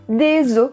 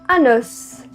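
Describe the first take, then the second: First: The final S sound is silent. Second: The final S sound is pronounced. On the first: It refers to several bones. "no plural, a gente não diz a letra S" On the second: It refers to one bone. "a gente vai dizer a letra S"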